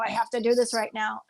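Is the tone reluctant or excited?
reluctant. It sounds reluctant and burdened.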